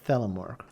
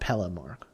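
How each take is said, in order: First: The name begins with a th sound. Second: The name begins with a p sound. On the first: The speaker calls it right. "It's Thelemork" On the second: The speaker calls it wrong. "Not Pelamork"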